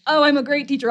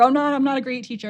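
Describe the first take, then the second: First: Mock proud. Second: Mock dismay. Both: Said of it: "stuck in this trap of".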